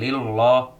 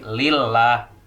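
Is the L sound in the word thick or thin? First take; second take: thick; thin. First: The L sound is heavy and thick. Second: The L sound is light and thin. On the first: The speaker calls it wrong. "bukan lillah" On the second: The speaker calls it right. "dibacanya tarkik, artinya tipis"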